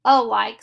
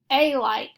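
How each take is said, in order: First: "a like" with a schwa, "uh-like", said louder; "a like" said as "uh-like", the right way; correct pronunciation. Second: "a like" with a long A, "ay like"; a full "ay" sound before "like"; "a like" said as "ay-like", the wrong way; wrong pronunciation. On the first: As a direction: punch a short "uh" into "like". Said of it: "we say a like". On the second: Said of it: "We don't say a like". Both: Shown as a demonstration.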